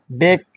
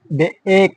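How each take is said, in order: First: Said in the usual way. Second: বে-, এক split into two sounds; sounding out. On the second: Shown as a demonstration. Teacher demonstrating long vowel to class, sounding out. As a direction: break it as বে-, then a separate long এক. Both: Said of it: "long sound".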